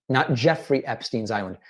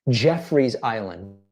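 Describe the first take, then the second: First: Jeffrey stressed, falling at the end. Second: Jeffrey's slow and stressed, rising. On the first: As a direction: hit Jeffrey in Jeffrey Epstein's Island. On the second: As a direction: lean on Jeffrey's, drawn out. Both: Shown as a demonstration. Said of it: "Not Epstein's Island".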